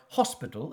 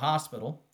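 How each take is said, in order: First: It is said in a put-on British accent. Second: It is said in the speaker's plain accent.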